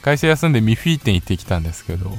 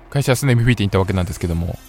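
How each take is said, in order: First: It is said slowly. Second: It is said fast.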